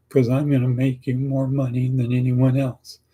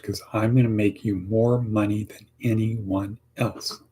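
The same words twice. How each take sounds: First: A touch higher, doubtful and unconvinced; unconvincing delivery. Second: Confident and positive, with a gentle nod; positive delivery. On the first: Job candidate answering the interviewer, unconvincing and unsure. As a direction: say it like you don't believe it. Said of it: "No, you gotta be positive like this". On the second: Job candidate answering the interviewer, positive and sure. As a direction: sell it like you mean it. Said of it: "you gotta be positive like this". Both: Shown as a demonstration.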